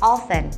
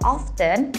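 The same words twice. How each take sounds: First: The T sound is silent. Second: The T sound is pronounced. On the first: The speaker calls it right. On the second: The speaker calls it wrong. "Dia ternyata dibacanya bukan"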